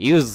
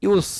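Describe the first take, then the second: First: ইউজ ending on a voiced z; use with z. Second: ইউজ ending in a long hissed s; use with s. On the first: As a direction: let ইউজ end in a buzz. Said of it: "এই সাউন্ডটা". (ইউজ, শেষে ঘোষ জ ধ্বনি) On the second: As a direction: say ইউজ as "yoos", hissing the end. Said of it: "আর এটা কি?". (ইউজ, শেষে অঘোষ স ধ্বনি) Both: Shown as a demonstration.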